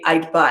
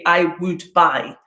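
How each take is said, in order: First: The word would is contracted to d. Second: The word would is said in full. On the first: The speaker calls it right. "They're going to contract this" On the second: The speaker calls it wrong. "You're never going to hear an L one speaker of English in a fluent conversation say"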